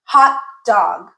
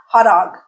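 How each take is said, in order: First: "Hot dog" with the t of "Hot" cut off by a glottal stop. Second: "hot dog" with a fully released t, "ho-t dog". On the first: Teacher modelling "Hot dog" with a glottal stop. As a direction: stop the air where the t of "Hot" would be. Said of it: "Okay, listen again". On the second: Teacher showing the wrong "hot dog" with a released t. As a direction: pronounce the t of "hot" crisply. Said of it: "Not hot dog". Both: Shown as a demonstration.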